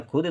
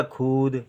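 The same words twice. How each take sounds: First: खुद with a short, quick u; short vowel. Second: खुद misread as खूद, long oo; wrong long vowel. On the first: Teacher giving the intended word, short vowel. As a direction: keep the u in खुद brief. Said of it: "हमको लिखना है खुद". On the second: Teacher showing the misspelling's sound, wrong long vowel. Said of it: "खा में बड़े उ की मात्रा लिख दें". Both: Shown as a demonstration.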